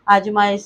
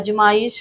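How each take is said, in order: First: The first vowel is long. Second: The first vowel is short. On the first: The speaker calls it right. "आजमाइश सही है" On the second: The speaker calls it wrong. "अजमाइश हो चुका है"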